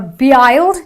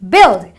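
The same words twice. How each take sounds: First: The vowel is not a short i sound. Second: The vowel is a short i sound. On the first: The speaker calls it wrong. "or build" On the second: The speaker calls it right. "the U I produces a short eh sound"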